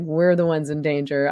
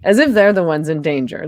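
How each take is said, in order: First: "we're" set against the other side; stress on WE'RE. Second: Loud, incredulous push on "they're"; stress on THEY'RE. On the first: Speaker countering the activists' claim, stress on "we're". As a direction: lean on "we're" to claim the danger. Correcting who is in danger. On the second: Speaker scoffing at activists' safety notes, stress on "they're". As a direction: hit "they're" hard, as if disputing it. Contrasting who is in danger. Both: Real, not acted.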